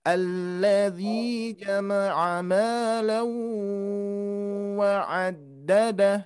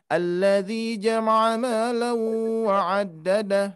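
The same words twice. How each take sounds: First: The phrase is recited at a slow pace. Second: The phrase is recited at a fast pace. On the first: The nasal hum needs to be held longer. "pelan-pelan ya" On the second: The short nasal hum fits this tempo. "Kalau cepat"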